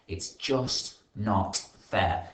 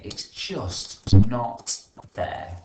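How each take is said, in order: First: Spoiled sulk. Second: Much louder, slow sulky whine; spoiled whine. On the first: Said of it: "grunted Red angrily". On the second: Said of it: "what would a spoiled person say". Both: Acted.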